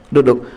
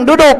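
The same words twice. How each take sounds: First: Said in the usual way. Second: Raised duduk. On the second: Shown as a demonstration.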